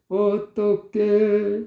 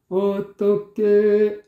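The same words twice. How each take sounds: The two takes are said the same way.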